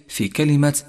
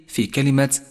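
The two takes are said the same way.

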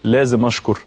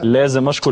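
First: It is said grudgingly, with a groan. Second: It is said warmly and with eagerness. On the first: Giving thanks feels like a burdensome duty. The speaker calls it wrong. "ما بتجيش بقى انه يو لازم اشكر" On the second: Giving thanks comes from genuine desire. The speaker calls it right. "بنفس"

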